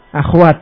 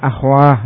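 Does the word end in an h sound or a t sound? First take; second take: t sound; h sound. First: The word ends with a t sound. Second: The word ends with an h sound. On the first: This is the original form of the word. "Tadinya apa aslinya?" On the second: This is the form used when pausing on the word. "tapi di sini dengan ha, akhwah diwaqafkan"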